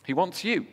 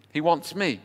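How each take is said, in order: First: "you" lifted high and leaned on; stress on you. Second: "me" lifted high and leaned on; stress on me. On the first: Preacher telling the congregation God wants them, "you" stressed. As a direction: punch the word "you". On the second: Preacher owning that God wants him too, "me" stressed. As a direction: land the weight on "me". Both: Shown as a demonstration.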